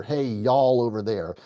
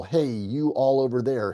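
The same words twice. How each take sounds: First: Y'ALL squeezed into one syllable; contracted Y'ALL. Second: YOU ALL in two full words; uncontracted YOU ALL. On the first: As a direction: merge YOU ALL into Y'ALL. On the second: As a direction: keep YOU and ALL separate. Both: Shown as a demonstration. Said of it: "It's a contraction of you all".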